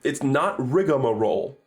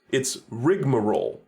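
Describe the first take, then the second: First: "rigmarole" with an extra syllable, rig-uh-muh-role; the wrong four-syllable "rigmarole", with an added "uh" after rig; common mispronunciation of rigmarole. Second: "rigmarole" in three syllables, rig-muh-role; crisp correction, "rigmarole" as RIG-muh-role; corrected rigmarole. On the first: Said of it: "Do you guys know it's actually rigmarole?". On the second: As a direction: say "rigmarole" with no vowel after rig. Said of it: "it's actually rigmarole". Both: Shown as a demonstration.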